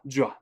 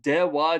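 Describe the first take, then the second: First: The two syllables merge into one sound, ja. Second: Both syllables, de and wa, are pronounced. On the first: "it turns into ja really easily" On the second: "If you say it fast"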